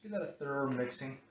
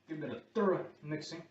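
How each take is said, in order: First: Thorough is said in a non-American accent. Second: Thorough is said in an American accent.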